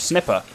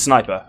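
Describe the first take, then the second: First: The first vowel is a short 'ih' sound. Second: The first vowel is a long 'eye' sound. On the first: The speaker calls it wrong. "I thought it was pronounced Snipper" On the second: The speaker calls it right. "Turns out it's Sniper"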